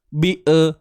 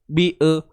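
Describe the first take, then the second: Both takes have the same delivery.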